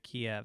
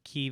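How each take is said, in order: First: The name is said with the Russian pronunciation. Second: The name is said with the Ukrainian pronunciation. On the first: The speaker calls it wrong. "instead of Kiev" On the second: The speaker calls it right. "the Ukrainian spelling is K Y I V, not K I E V, and it's pronounced Kiev"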